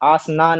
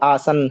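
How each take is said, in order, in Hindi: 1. शब्द के अंत में एक अतिरिक्त स्वर ध्वनि है। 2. शब्द व्यंजन ध्वनि पर खत्म होता है। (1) "आसना नहीं है" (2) "ये आसन है"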